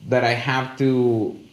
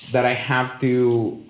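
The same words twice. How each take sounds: The two takes are said the same way.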